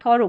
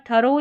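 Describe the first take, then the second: First: "थॉरो", opening vowel aw, ending in o; first vowel as aw. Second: "थरो", opening vowel neutral, ending in o; first vowel as uh. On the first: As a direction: say "थॉरो" with a rounded aw in the first syllable. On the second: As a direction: say "थरो" with a short uh in the first syllable. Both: Shown as a demonstration. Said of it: "दोनों तरीके से आप pronounce कर सकते हैं".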